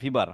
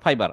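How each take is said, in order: First: The first syllable has an 'ee' vowel. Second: The first syllable has an 'eye' vowel. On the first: The speaker calls it wrong. "যেটা বললেন ফিবার" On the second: The speaker calls it right. "উচ্চারণটা হবে ফাইবার"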